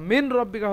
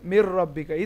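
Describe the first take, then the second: First: The n sound is kept before the r. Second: The n sound merges into a doubled r. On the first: The speaker calls it wrong. "মিন রব্বিকা হওয়া উচিত, কিন্তু নুনটা মিলে যাবে হচ্ছে রয়ের সঙ্গে" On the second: The speaker calls it right. "তাহলে উচ্চারণ কি হবে, মির রব্বিকা"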